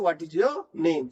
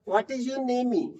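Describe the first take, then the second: First: No extra vowel follows the word name. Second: An extra ee vowel follows the word name. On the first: The speaker calls it right. "ई silent होता है" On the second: The speaker calls it wrong. "ई भी बोलने लगे तो कैसा लगेगा, खराब लगेगा"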